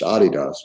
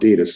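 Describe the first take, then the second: First: It is said with a non-American pronunciation. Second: It is said with an American pronunciation. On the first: The speaker calls it right. "It's really pronounced Adidas" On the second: The speaker calls it wrong. "we mispronounced it American, call it Adidas"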